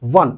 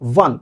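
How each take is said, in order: First: The word begins with a w sound. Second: The same.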